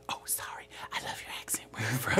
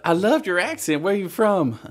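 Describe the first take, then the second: First: Hushed, whispered redo of the question; quoted Vine apology. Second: High, louder gushing admirer; quoted Vine. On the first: Mistaking Liberian for librarian, whispered apology. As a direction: drop to a sheepish whisper. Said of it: "He's like". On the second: Vine character asking about an accent, gushing. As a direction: act out the Vine's eager questioner. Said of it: "uh, it's like". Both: Retold or imitated.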